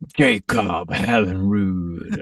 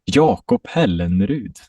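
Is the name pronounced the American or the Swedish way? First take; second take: American; Swedish. First: The name has an American English pronunciation. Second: The name has a Swedish pronunciation. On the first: "in America, you probably say like" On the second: "That's how you say it in Swedish"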